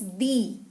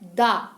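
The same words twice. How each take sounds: First: The word ends in a long 'ee' vowel. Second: The word ends in a short 'uh' vowel. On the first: A vowel sound follows. "If the following noun starts with a vowel sound, then we should pronounce the" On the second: A consonant sound follows. "But if it starts with a consonant sound, we should pronounce the"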